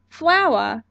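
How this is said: The final r is dropped, ending in ah.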